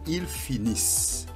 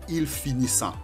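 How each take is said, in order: First: The ending is silent after the s sound. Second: The ending is voiced as a nasal vowel. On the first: The speaker calls it right. "On dit ils finissent. Et N T ne se prononce pas" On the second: The speaker calls it wrong. "On ne dit pas ils finissant"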